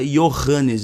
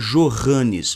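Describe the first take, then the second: First: The name begins with a Y sound. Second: The name begins with a J sound. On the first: The speaker calls it right. "você pronuncia Johannes em alemão" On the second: The speaker calls it wrong. "você não pronuncia Johannes"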